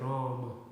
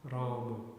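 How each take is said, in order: No difference in how they are said.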